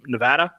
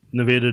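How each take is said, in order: First: Said in the usual way. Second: Nevada with a long A, "nuh-VAY-duh"; stressed VAY in Nevada; alternate pronunciation. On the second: Shown as a demonstration. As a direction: say Nevada so the middle rhymes with "day". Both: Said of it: "depending on how you pronounce it".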